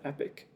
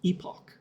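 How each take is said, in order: First: The second syllable sounds like 'ick'. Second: The second syllable sounds like 'ock'. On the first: This is how the speaker has always said it. "I still just pronounce that epic" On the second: This is how others around the speaker said it. "I still struggle to call that epoch. Like, that word just, it feels weird in my mouth"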